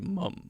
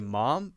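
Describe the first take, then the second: First: It is said with a British vowel. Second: It is said with an American vowel. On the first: "British people say mum" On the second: "Americans say mom"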